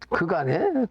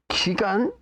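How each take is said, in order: First: The first syllable has an 'eu' vowel. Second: The first syllable has an 'ee' vowel. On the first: "실제 이제 그간이죠" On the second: "우리 발음은 기간인데"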